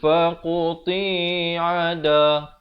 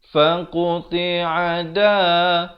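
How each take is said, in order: First: The syllable ti is drawn out long. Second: All syllables are held for equal short length. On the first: The speaker calls it wrong. "ti pula jadi panjang" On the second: The speaker calls it right. "Ini semua empat huruf yang pertama adalah satu harakat"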